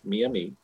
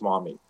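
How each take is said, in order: First: The name is said the tribe's own way. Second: The name is said the French-derived way, maw-MEE. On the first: This is the tribe's own name for itself. The speaker calls it right. "One is what they call themselves" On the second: This is the French version of the name. The speaker calls it wrong. "the other is the mispronunciation in French"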